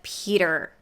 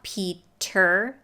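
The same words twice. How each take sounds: First: The middle T is a quick flap, like D. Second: The middle T is a clear, crisp T. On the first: The speaker calls it right. "pronounced with a flap T slash fast D" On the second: The speaker calls it wrong. "not Peter"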